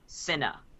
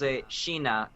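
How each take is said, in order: First: The name begins with an 's' sound. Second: The name begins with a 'sh' sound. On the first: This is the dub's changed pronunciation. The speaker calls it wrong. "they changed the pronunciation" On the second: This is the original pronunciation. The speaker calls it right. "it's pronounced Sheena"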